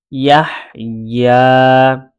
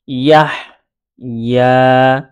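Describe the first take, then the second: First: ইয়াহ leading directly into long-held ইয়া; connected syllable chant; letters read together. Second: ইয়াহ, a clear pause, then long ইয়া; separated syllable chant; letters read separately. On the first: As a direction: link ইয়াহ and ইয়া in one slow phrase. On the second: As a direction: sound out ইয়াহ and ইয়া apart. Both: Shown as a demonstration. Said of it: "আমি দুইভাবে পড়ে".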